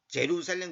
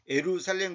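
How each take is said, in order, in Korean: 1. 이 이름은 'je' 소리로 시작해요. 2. 이 이름은 평범한 'e' 소리로 시작해요. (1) "제루살렘 그러지 그럽니까? 그러지 않잖아요" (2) "에루살렘 그러지"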